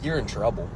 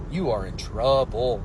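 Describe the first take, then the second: First: Said in the usual way. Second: Slow, uncontracted "You are in trouble", every word weighted; emphatic warning. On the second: Real, not acted.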